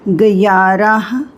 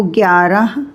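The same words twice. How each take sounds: First: ग्यारह drawn out slowly, as written; spelling pronunciation. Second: ग्यारह said naturally, at normal speed; spoken pronunciation. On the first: Teacher slowly reads ग्यारह as it is written. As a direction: sound out ग्यारह slowly, letter by letter. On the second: Teacher gives the spoken form of ग्यारह. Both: Shown as a demonstration. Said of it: "को ग्यारह".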